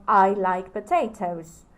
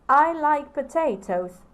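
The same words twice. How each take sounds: First: Said in the usual way. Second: I like potatoes stressed on I, said higher and louder; enthusiastic statement. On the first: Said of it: "let me give you the example of". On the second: Shown as a demonstration. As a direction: say it with eager enthusiasm. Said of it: "I'm acting out".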